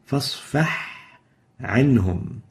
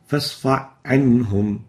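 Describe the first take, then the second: First: The h sound is clearly heard before the next word. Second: The h sound is merged into the next word. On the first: The speaker calls it right. "We should pronounce it clearly" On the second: The speaker calls it wrong. "No ha, directly the fa to the ayn"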